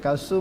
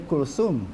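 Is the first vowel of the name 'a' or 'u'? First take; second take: a; u. First: The first vowel is an open 'a'. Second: The first vowel is a rounded 'u'. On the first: This is how Malay speakers usually read it. "Kita baca Kalsum kan" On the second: This is how Arabs say it. "dia Kulsum"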